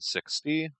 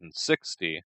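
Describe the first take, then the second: First: The stress falls on the second syllable. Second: The stress falls on the first syllable. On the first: The speaker calls it wrong. "I gave sixty the intonation you would give the word sixteen" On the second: The speaker calls it right. "So let's try that again"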